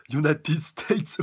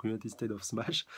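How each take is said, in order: First: Drawn-out, high, loud attack call; attack-name shout. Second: Said in the usual way. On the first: Acted. Manga reader calling out All Might's finishing move, drawn-out shout. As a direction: stretch it out big and loud.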